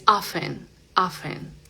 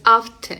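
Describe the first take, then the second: First: "often" said softly as "offen"; silent T. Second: "often" with an audible T; wrong sounded T. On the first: Teacher correcting the T version, silent T in "often". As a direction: leave the T out of "often". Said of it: "esa T silenciosa". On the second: Teacher showing what not to say, sounded T in "often". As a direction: hit the T in "often". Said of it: "no es often". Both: Shown as a demonstration.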